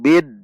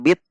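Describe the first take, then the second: First: The word ends with a voiced d sound. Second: The word ends with a voiceless t sound. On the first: The speaker calls it right. "namun bid" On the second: The speaker calls it wrong. "ingat bukan bit"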